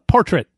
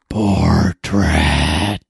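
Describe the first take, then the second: First: It is said in the speaker's natural voice. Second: It is said in Krong's character voice.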